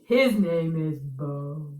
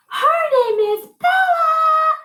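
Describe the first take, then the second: First: Much lower, very slow. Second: Very high, louder, slow. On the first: Teacher voicing Bo low for the echo. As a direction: rumble it down low like Bo. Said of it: "and a low voice". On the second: Teacher voicing Bella high for the echo. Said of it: "use a high voice". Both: Shown as a demonstration.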